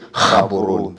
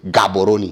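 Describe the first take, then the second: First: The name begins with a breathy H-like sound. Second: The name begins with a hard G sound. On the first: The speaker calls it right. "We say Gaboroni" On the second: The speaker calls it wrong. "we don't say Gaboroni"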